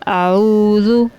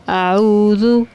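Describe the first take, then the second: No difference in how they are said.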